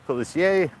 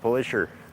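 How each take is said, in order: First: The name is pronounced the French way. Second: The name is pronounced the local English way. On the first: "in French" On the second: "as we say here"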